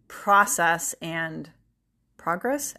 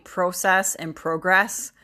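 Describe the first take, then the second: First: The words have an American pronunciation. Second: The words have a British pronunciation. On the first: "I'll go back to saying" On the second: "if I'm watching a lot of British TV or YouTube or whatever, I'm almost always saying"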